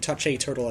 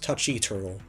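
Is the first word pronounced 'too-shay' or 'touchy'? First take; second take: too-shay; touchy. First: The first word ends in a 'shay' sound. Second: The first word ends in a 'chee' sound. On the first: The speaker calls it right. "mispronouncing Touch-A Turtle" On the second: The speaker calls it wrong. "as Touchy Turtle"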